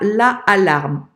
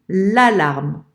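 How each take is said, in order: First: The article la is said fully before alarme. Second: The article is elided, joined straight onto alarme. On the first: The speaker calls it wrong. "On ne dit pas la alarme" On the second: The speaker calls it right. "on dit l'alarme"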